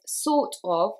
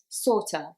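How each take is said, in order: First: The word 'of' is said fully and separately. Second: The word 'of' is reduced to a weak 'a'. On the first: "sort of, which becomes sorta" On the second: "which becomes sorta"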